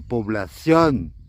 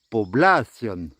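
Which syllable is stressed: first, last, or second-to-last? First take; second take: last; second-to-last. First: The stress is on the last syllable. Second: The stress is on the second-to-last syllable. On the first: "il y a un accent sur le dernier O, donc c'est población" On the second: "s'il n'y avait pas d'accent, on dirait población"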